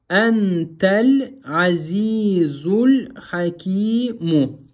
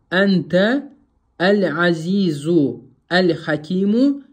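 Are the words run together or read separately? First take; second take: run together; separately. First: The words are run together without breaks. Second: Each word is read separately with full articles. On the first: The speaker calls it right. "та с буквой лям, за с буквой лям" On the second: The speaker calls it wrong. "это означает, что вы не усвоили правило васля"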